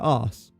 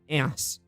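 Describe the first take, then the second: First: It has a long 'ah' vowel. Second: It has a short 'a' vowel. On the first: The speaker calls it right. "I say arse" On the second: The speaker calls it wrong. "I don't say ass"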